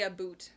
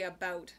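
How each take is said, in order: First: "about" said as "aboot", rounded oo vowel; mock Canadian aboot. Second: Said in the usual way. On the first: Shown as a demonstration. Denying to chat that she says about like "aboot". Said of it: "No, I don't say about". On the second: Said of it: "I say about".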